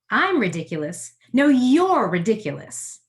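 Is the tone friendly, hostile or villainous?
villainous. It sounds villainous, addressing a booing crowd.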